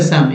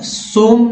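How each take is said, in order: First: सम with a short "uh"; correct short vowel. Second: सोम with a long "o"; wrong "o" pronunciation. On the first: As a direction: say सम like English "some". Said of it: "अ के रूप में होता है". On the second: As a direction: say सोम to rhyme with "home". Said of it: "सोम नहीं पढ़ेंगे". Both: Shown as a demonstration.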